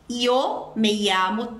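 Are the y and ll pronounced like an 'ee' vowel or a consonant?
ee vowel. The y and ll sound like an ee vowel.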